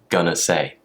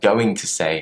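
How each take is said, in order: First: 'Going to' is run together as 'gonna'. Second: Each word of 'going to' is said in full. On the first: "I said gonna say" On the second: "Instead of saying going to say"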